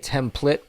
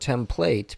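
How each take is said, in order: First: The second syllable sounds like 'plit'. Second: The second syllable sounds like 'plate'. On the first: "P L I T T" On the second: "P L A T E"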